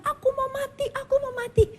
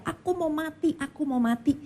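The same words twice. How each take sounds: First: Very high, sobbing wail; a broken man crying out he wants to die; crying despair. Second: Retold crying. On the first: Retold or imitated. (suami menangis meraung ingin mati) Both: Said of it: "dia dengar suaminya nangis-nangis, teriak-teriak".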